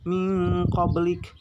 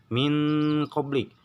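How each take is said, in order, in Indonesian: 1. Bunyi n menjadi dengung sengau yang panjang dan kuat. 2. Bunyi n biasa, tanpa dengung sengau yang panjang. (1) "harus mendengung pisan. Sangat mendengung"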